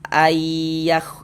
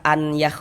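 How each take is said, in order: First: The n sound merges into the y sound. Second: The n sound is heard before the y. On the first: The speaker calls it right. "Kita baca ayah" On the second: The speaker calls it wrong. "jangan dibaca an yah"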